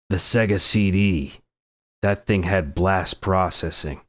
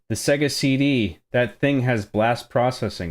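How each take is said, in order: First: It is read in a put-on, gruff character voice. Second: It is read in a plain, everyday voice. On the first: The speaker calls it right. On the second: The speaker calls it wrong.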